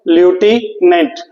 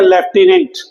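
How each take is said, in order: First: ल्यूटिनेंट slowly, starting lyoo, no f; alternative pronunciation. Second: लेफ्टिनेंट said with an f, as lef-ti-nent; Hindi pronunciation. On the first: Teacher showing what many people say instead, slow lyoo-tee-nent. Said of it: "कई लोग ल्यूटिनेंट भी बोलते हैं". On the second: Teacher showing how Hindi speakers say it, with lef-. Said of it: "हम हिंदी में क्या बोलते हैं". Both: Shown as a demonstration.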